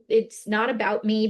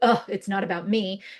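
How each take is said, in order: First: It is said in a relaxed, easygoing tone. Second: It is said in a negative, sulky tone.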